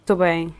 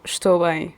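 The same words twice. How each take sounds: First: Clipped casual "Tô bem"; Portuguese contraction. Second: "Estou bem" with every syllable said out; full Portuguese form. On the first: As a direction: say "Tô bem" as one quick slurred unit. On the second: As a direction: pronounce "Estou bem" in full, not shortened. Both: Shown as a demonstration. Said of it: "instead of".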